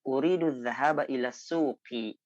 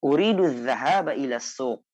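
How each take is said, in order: First: The final vowel ending of the last word is pronounced. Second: The final vowel ending of the last word is dropped. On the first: This is the full reading form. "tanpa kita baca" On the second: This is casual spoken usage. "dalam berbicara kita tidak terlalu membutuhkan uh, harokat akhir"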